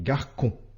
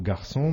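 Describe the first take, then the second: First: The c is pronounced as a k sound. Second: The c is pronounced as an s sound. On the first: The speaker calls it wrong. "on n'obtient pas le son SE, mais le son QUE" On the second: The speaker calls it right. "tu n'obtiens pas le mot garçon"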